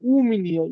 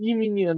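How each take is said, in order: First: The first word is the vowel 'u'. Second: The first word is the vowel 'i'. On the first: The speaker calls it right. "এটার উচ্চারণ করতে হবে উ" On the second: The speaker calls it wrong. "ই মিনিয়া না"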